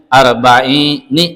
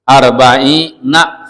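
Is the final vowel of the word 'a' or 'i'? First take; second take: i; a. First: The word ends with an 'i' vowel. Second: The word ends with an 'a' vowel. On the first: This is the rare form used in the poem. "nunnya kasrah" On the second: This is the usual, most common form. "yang kebanyakan arba'ina fathah"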